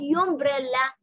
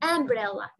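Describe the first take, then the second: First: The word starts with a 'yu' sound. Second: The word starts with an 'uh' sound. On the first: The speaker calls it wrong. "ما حقول يومبريلا انطق يو" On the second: The speaker calls it right. "لا حنطق أ umbrella"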